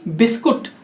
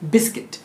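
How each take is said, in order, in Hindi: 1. दूसरे अक्षर में 'put' वाला स्वर है। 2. दूसरे अक्षर में 'kit' वाला स्वर है। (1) "ना कि बिस्कुट" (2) "इंग्लिश में इसको बिस्किट कहते हैं"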